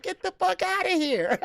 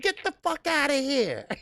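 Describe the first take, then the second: First: Even higher, laughing mock dismissal; high giggling brush-off; laughing retort again. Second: High, laughing, mock-outraged brush-off; giggling get-out-of-here; laughing retort. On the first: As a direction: squeal it out through laughter. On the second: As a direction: toss it off through laughter, way up high. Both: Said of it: "I said".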